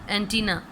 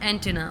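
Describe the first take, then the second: First: It is said the Urdu way, with stress. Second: It is said the English way. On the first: "और उर्दू में एंटीना, ये पे हम ज़ोर देते हैं" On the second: "उसे हम एंटिना पढ़ते हैं"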